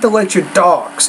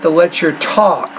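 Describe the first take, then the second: First: The T in talks sounds soft, like D. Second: The T in talks has a strong puff. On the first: The speaker calls it wrong. "not the lecture talks ... it almost sounds like a D sound" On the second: The speaker calls it right. "but the lecture talks"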